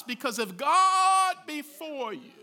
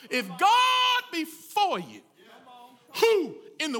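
First: Said in the usual way. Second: Higher, louder and slower on GOD; shouting the promise of faith to the congregation; preaching shout. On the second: Real, not acted. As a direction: lean on the word God and shout it out. Preacher builds to the climax.

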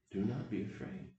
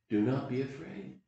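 First: Soft repeat. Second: Reassuring. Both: Shown as a demonstration. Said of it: "I'm gonna pass on to you".

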